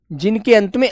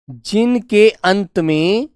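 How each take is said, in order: First: Said in the usual way. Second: Drawn out, word by word; slow dictation. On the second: Shown as a demonstration. Teacher repeating for pupils to follow, slow dictation. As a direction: spell it out slowly for note-takers.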